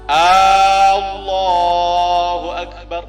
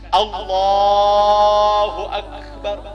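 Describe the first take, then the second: First: The opening vowel of Allahu is drawn out long. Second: The opening vowel of Allahu is kept short. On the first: It sounds like a question asking whether God is the greatest. The speaker calls it wrong. "itu sudah salah. Dia panjangkan alifnya" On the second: It is a statement that God is the greatest. The speaker calls it right. "Makanya tidak boleh dipanjangkan"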